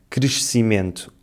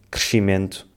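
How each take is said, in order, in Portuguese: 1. A consoante do meio soa como s. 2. A consoante do meio soa como sh. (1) "Em vez de dizermos" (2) "transformamos o som se em x"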